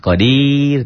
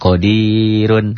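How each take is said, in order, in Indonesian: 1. Kata ini berhenti pada konsonan akhir yang mati. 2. Kata ini berakhir dengan suku kata sengau penuh.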